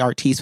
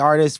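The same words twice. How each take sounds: First: The name is said with a French Creole inflection. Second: The name is said with a plain American sound. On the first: This is how the other side of the family says it. "West Coast, we say Artis with the French Creole infliction" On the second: This is how one side of the family says it. "East Coast, we say Artis"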